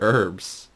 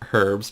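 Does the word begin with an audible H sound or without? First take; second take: without; H sound. First: The word begins with a vowel, no H. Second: The word begins with an audible H sound. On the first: The speaker calls it right. "but they're herbs" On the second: The speaker calls it wrong. "people might say herbs"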